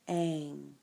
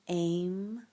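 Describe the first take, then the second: First: The word ends with an ng sound. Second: The word ends with an m sound. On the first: "Some people pronounce it A I N G" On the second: "It's pronounced A I M"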